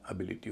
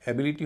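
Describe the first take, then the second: First: एबिलिटी as "ə-BIL-i-ti"; soft अ opening on एबिलिटी, stress on बि; reduced first vowel. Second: एबिलिटी with a full "e" opening; candidate pronunciation. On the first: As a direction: say एबिलिटी with a weak schwa first, voice dropped. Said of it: "उससे पहले वाला syllable हल्का होगा". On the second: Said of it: "पता करें इसका उच्चारण". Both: Shown as a demonstration.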